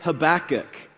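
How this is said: The name is said the American way. "in the United States, we say Habakkuk"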